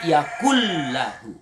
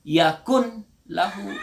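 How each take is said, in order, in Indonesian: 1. N menyatu penuh ke dalam L, tanpa sengau. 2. N diucapkan terpisah sebelum L. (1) "tapi yakullahu" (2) "jangan dibaca yakun lahu"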